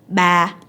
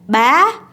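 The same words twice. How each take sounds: First: The tone stays level without rising or falling. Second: The tone rises upward across the word. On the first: It means the number three. "the number three in Vietnamese is ba" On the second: It means dad. "so the tone goes up"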